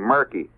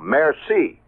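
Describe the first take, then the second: First: The middle consonant is a hard 'k' sound. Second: The middle consonant is a soft 's' sound. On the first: The speaker calls it wrong. "I used to say murky" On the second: The speaker calls it right. "I just learned last year that the C is pronounced that way"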